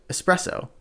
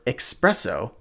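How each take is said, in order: First: The word begins with an 'ess' sound. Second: The word begins with an 'ex' sound. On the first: The speaker calls it right. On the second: The speaker calls it wrong.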